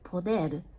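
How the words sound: The word has a Spanish pronunciation. The speaker calls it right. "we pronounce this word um, poder in Spanish"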